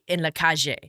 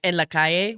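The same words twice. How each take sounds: First: The double L sounds like a J. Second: The double L sounds like a Y.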